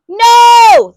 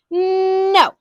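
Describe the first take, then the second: First: It is yelled loudly. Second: It is said at normal volume.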